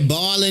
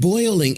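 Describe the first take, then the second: First: The vowel is a plain 'aw'. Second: The vowel glides like 'oy'. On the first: This is the traditional local Texan way. "I'm in here balling them eggs" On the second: This is the non-local way of saying it.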